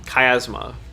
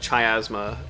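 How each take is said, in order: First: The word begins with a hard k sound. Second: The word begins with a ch sound. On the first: The speaker calls it right. "it kind of sounds like ka" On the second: The speaker calls it wrong. "it's not cha"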